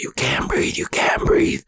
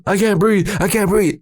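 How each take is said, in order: First: Urgent voiceless whisper; whispered retort. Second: High-pitched panicked pleading; retold freak-out. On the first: Retold or imitated. Big brother answers the panicking kid, harsh whisper. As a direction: hiss it back at him in a whisper. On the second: Teen tells his brother he can't breathe, high panic. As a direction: whine it out in mock panic. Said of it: "I'm, like, freaking out".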